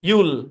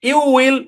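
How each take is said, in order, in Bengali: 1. এটা একটা ছোট, সংকুচিত সিলেবলে বলা হয়। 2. এটা দুটো আলাদা পূর্ণ শব্দ হিসেবে বলা হয়। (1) "আমারটা শুনে নেন" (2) "যদি আপনি ইউ উইলই বলেন তাহলে তো এটাই হয়ে গেল, তাহলে তো কন্ট্রাকশন হইলো না"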